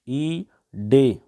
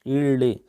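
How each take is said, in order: First: The middle consonant is a plain d sound. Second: The middle consonant is a retroflex l-like sound. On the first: "डे आ रहा है आपका" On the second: "डे के स्थान पर आपका दुहिस्पृष्ट हो जाएगा"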